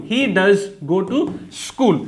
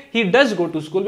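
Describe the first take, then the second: First: Very slow, word by word, every word "he does go to school" spaced out; slow dictation. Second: Said in the usual way. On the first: Shown as a demonstration. Teacher dictating the sentence to students, very slow word by word. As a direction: spell it out slowly so students can write. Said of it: "ऐसे translate कर दोगे". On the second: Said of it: "ऐसे translate करोगे".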